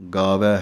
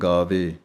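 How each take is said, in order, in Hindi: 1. शब्द का अंत खुले 'ai' स्वर से होता है। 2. शब्द का अंत बंद 'e' स्वर से होता है। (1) "ਵਾਵੇ ਦਲਾਈਆਂ ਵੈ" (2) "ਇਸੇ ਤਰ੍ਹਾਂ ਪਾਠ ਬੋਲਿਆ ਜਾਂਦਾ ਹੈ"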